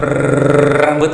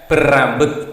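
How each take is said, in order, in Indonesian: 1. Bunyi r panjang dan ditarik. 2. Bunyi r pendek dan tunggal. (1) "bukan berambut R-nya banyak, tidak ya" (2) "Berambut ya"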